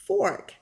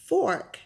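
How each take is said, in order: First: The R sound is clearly pronounced. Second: The same.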